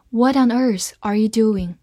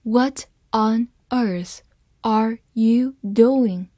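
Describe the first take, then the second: First: Said in the usual way. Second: Half-speed, word by word, evenly separated; slow demo reading. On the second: Shown as a demonstration. Teacher modelling the question for learners, slow word-by-word reading. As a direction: read the question slowly for learners, pausing between words. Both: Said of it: "好，慢慢来读".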